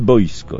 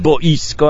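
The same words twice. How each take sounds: First: The word is said with two syllables. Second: The word is said with three separate syllables. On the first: The speaker calls it wrong. "a nie boisko" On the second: The speaker calls it right. "Są dwa, trzysylabowe słowa"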